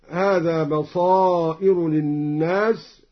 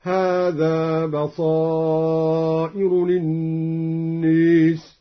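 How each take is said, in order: First: Said in the usual way. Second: Slow chant, للناس said lin-nees; drawn-out tajwid with imala on للناس. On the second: Shown as a demonstration. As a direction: tilt the held aa of للناس toward e. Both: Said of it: "أمال الناس".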